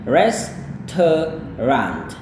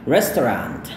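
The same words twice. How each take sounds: First: It is said slowly. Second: It is said fast.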